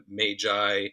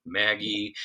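First: Magi said as MAY-jai; variant pronunciation. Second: Maggie said as MAG-ee; variant pronunciation. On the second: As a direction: say Maggie with a hard G and final ee. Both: Shown as a demonstration. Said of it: "it's pronounced in different ways".

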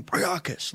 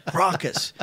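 First: Priakis called out high; coach's call of the name. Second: Prokis, said with the vowels dropped; mimicking the coach's mangled name; mispronounced name. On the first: Retold or imitated. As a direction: yell Priakis up high, stretched. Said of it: "He never said it right". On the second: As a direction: say Prokis short, two clipped syllables. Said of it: "He called me Prokis".

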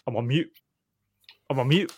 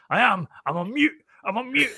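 First: Said in the usual way. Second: Much higher, rising exasperation on "I'm on mute"; imitating a fed-up captain insisting, pitch climbing; mock furious. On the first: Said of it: "turns around to the press officer and goes". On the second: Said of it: "you get absolutely furious".

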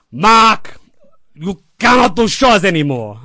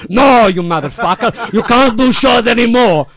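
First: Higher, louder, grave warning; dying mentor's solemn last words; deathbed advice. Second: Loud, higher, slow angry shout; dying mentor exploding at the kid; furious correction. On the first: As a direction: look him dead in the eye and warn. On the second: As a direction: yell the correction through frustration. Lou furious at misunderstanding. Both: Retold or imitated.

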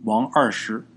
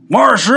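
First: Said in the usual way. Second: Loud, high-pitched name call; abrupt commanding shout of a name; sudden outburst. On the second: A narrator's reading. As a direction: blurt the name out forcefully. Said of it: "突然间说出仨字儿".

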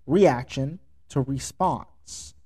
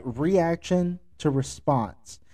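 First: Said in the usual way. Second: "Reaction to response" said slowly, each word weighted; slow it right down and land "Reaction" and "response"; deliberate slow recap for emphasis; slow emphatic repeat. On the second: Shown as a demonstration.

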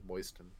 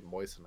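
First: "moisten" as MOYST-ən, T sounded; pronounced T. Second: "moisten" as MOY-sən, T silent. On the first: Host insists on his own way, T sounded in "moisten". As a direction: put the T into "moisten". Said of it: "I say moisten". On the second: Host questions the usual way, no T in "moisten". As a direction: drop the T from "moisten". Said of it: "why would I say moisten". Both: Shown as a demonstration.

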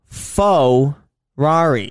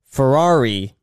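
First: Faux Rari, very slow, each syllable apart; over enunciating. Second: Ferrari said oddly, as "faux-rari"; weird Ferrari. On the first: Shown as a demonstration. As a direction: Faux Rari stretched out slowly, "faux" like fake. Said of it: "I'll say it slower". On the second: Real, not acted. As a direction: Ferrari with a strange first syllable, "faux". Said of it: "I kinda said Ferrari a little weird".

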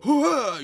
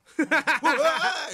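First: High, loud astonished "ふわー" as at the results; gasped amazement. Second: "ふわー" drawn out very slowly, high and laughing; laughing gasp. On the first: Telling his partner how he gasped at the results: high, loud "ふわー". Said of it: "言うてんもん". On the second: Repeating his stunned reaction to his partner: "ふわー" slow, high, laughing. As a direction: stretch "ふわー" long and high through a laugh. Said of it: "言うたよ、俺". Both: Retold or imitated.

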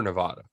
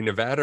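First: Nevada with broad AH in the middle; stressed middle of "Nevada" like "spa"; non-local pronunciation. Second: Nevada with short A, as in "cat"; stressed middle of "Nevada" rhymes with "had"; local pronunciation. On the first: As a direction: say "Nevada" as nuh-VAH-duh. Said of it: "we have to also agree". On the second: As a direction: say "Nevada" as nuh-VAD-uh. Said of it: "say it how the locals say it". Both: Shown as a demonstration.

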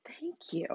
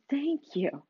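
First: Soft unvoiced whisper of thanks; whispered thought. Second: Said in the usual way. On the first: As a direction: breathe it as a silent inner thank you. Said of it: "I stopped and I thought". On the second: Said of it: "And I told the person".

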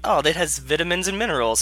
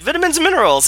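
First: Mock British accent, pitched up; casual British-accent impression; imitated British accent. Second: Put-on high, loud parroted British accent; hammed-up copycat British accent; mimicked British accent. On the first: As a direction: do Bear Grylls saying it in British. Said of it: "with Bear's accent". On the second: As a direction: echo it in an overexcited fake British accent. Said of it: "Zeph would repeat it with Bear's accent".

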